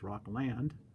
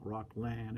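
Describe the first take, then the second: First: The word ends with a clear final D sound. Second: The word ends without a final D sound. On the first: The speaker calls it right. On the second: The speaker calls it wrong. "I forgot the D on the end of Rockland. It's not"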